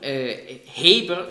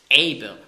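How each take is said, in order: First: The name begins with an h sound. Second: The name begins directly with a vowel. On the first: This is the usual German form of the name. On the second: This is how the name is said in Hebrew.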